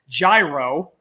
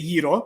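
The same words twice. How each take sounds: First: It is said with an American pronunciation. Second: It is said with a Greek pronunciation.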